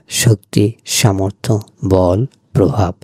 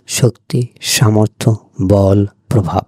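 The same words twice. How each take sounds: The two takes are said the same way.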